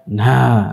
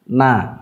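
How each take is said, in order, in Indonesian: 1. Suku kata ini diucapkan dengan banyak napas yang keluar. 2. Suku kata ini bersuara dengan sedikit napas yang keluar. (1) "tidak na, enggak" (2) "na seperti ini"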